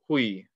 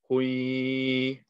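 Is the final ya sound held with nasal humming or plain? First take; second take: plain; nasal. First: The ya is short with no nasal hum. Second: The ya is held with a nasal hum. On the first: "This is not the full thing" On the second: "we are going to put a gunna on the ya"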